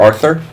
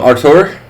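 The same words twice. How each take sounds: First: The name is said with a Brazilian Portuguese pronunciation. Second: The name is said with an English pronunciation.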